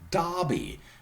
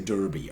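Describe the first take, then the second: First: It is said with a British vowel. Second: It is said with an American vowel. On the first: "Brits would say Derby" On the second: "Americans would say Derby"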